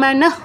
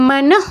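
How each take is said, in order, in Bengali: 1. শেষের h-ধ্বনিটি পূর্ণভাবে উচ্চারিত। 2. শেষের h-ধ্বনিটি ছোট ও সংক্ষিপ্ত করে উচ্চারিত। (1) "আমি এখন ভেঙে ভেঙে বলছি এই জন্য আমি মনঃ বলতে পারি" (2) "দ্রুত যদি বলি সেই ক্ষেত্রে মনঃ বলতে হবে"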